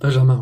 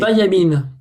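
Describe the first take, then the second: First: The middle sounds like 'jam' with a clear j. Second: The middle sounds like 'ya' instead of 'jam'. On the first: This is the real name. The speaker calls it right. "je rigole, je rigole. Benjamin, ouais" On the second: It is only a joke. The speaker calls it wrong. "Ça se prononce Bayamin. Ah, je rigole"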